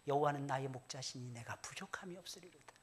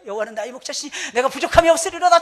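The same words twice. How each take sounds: First: It is recited at a calm, slow pace. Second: It is recited at a very fast pace.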